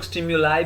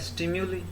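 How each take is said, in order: First: The final syllable ends with an 'eye' sound. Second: The final syllable ends with an 'ee' sound. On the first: "इसे कुछ लोग स्टिम्युलाई भी बोलते हैं" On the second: "plural में हो जाता है स्टिम्यूली"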